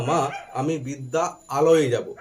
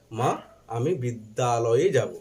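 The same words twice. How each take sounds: First: "বিদ্যা আলয়ে" said as two separate words, not joined; split pronunciation. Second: Said in the usual way. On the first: Shown as a demonstration. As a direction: pull "বিদ্যা" and "আলয়ে" apart with a break. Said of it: "কোনটা বলি?". ("বিদ্যা আলয়ে" আলাদা করে ভেঙে উচ্চারণ) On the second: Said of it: "আমরা যখন কথা বলি তখন কি হয়".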